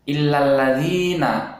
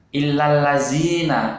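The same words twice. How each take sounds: First: The consonant before the ending is a dh sound. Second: The consonant before the ending is a plain z. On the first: The speaker calls it right. "Nah, seperti itu ya" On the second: The speaker calls it wrong. "Illallazina itu juga salah ya"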